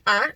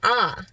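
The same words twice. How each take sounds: First: The vowel is held briefly. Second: The vowel is held a little longer. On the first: "instead of saying ah" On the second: "It's a little longer"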